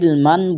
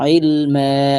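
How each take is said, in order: First: The word ends with an n sound. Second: The word ends with a lengthened a vowel. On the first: The speaker calls it wrong. "ইলমান বলে যদি থামেন তাহলে হবে না" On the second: The speaker calls it right. "মিম আলিফ জবর মা বলে এক আলিফ লম্বা করতে হবে"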